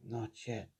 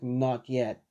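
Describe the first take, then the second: First: Very soft, lower repeat; quiet echo. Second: Said in the usual way. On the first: Acted. Deku repeats the words of the voice in his head, hushed. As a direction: echo it faintly, almost to yourself. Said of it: "Deku just says". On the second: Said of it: "As the voice just says".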